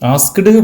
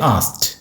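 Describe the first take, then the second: First: The word ends with a d sound. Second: The word ends with a t sound. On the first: The speaker calls it wrong. "ഇങ്ങനെ പറയാൻ പാടില്ല" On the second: The speaker calls it right. "അവസാനത്തെ ഇ ഡിക്ക് വരും ടി"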